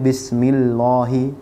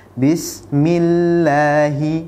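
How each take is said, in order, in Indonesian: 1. L dalam "Allah" itu berat dan tebal. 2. L dalam "Allah" itu ringan dan tipis. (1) "Tidak boleh" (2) "Jadi sinnya harus tipis"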